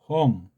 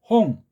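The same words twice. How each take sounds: First: The initial h sound is voiced and resonant. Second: The initial h sound is plain and voiceless. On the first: "울림 소리 듯하게" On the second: "그냥은"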